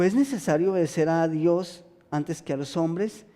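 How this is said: It is said as a question, rising.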